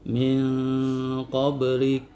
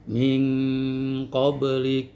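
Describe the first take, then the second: First: The nasal hum is light, thin and less dominant. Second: The nasal hum is heavy, dark and ang-like. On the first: The speaker calls it wrong. "tidak boleh Anda membaca min qablik, itu adalah ikhfa aqrab" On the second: The speaker calls it right. "suaranya menjadi ang ya"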